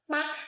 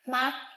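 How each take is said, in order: First: The syllable is short, light and unstressed. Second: The pitch stays high and level. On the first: It marks a question. "Neutral tone" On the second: It means mother. "first tone"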